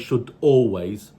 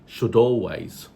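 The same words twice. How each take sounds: First: A glottal catch breaks the two words apart. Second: The final d runs straight into always. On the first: The speaker calls it wrong. "No glottal voice should be used in between. Don't say" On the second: The speaker calls it right. "it's should always. That's what we mean by catenation"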